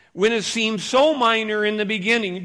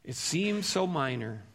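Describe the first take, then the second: First: Loud preaching with "so" punched hard; stressed so. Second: Soft, hushed "It seems so minor." with a gently falling "so"; quiet repeat. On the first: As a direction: lean hard on "so" in "seems so minor", louder. Preacher stresses how minor sin seems. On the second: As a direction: let the line drop to a soft, reflective near-murmur. Preacher repeats the line after a long pause. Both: Acted.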